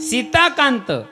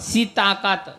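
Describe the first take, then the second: First: The last syllable ends with a nasal sound. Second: The last syllable has no nasal sound. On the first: It refers to the husband of Sita. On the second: It is taken to mean in the buttermilk.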